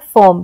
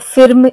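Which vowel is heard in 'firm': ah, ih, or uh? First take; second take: uh; ih. First: The vowel is a neutral uh sound. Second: The vowel is a short ih sound. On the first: The speaker calls it right. "बल्कि हम कहते हैं फर्म" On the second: The speaker calls it wrong. "ऐसे हम नहीं करते pronunciation"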